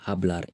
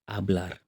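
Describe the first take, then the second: First: The word begins with an audible h sound. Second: The word begins directly with the vowel sound. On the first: The speaker calls it wrong. "We don't say hablar" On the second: The speaker calls it right. "the H is silent. we say hablar"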